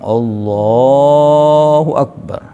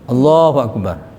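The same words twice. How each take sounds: First: The phrase is drawn out long. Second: The phrase is said quickly.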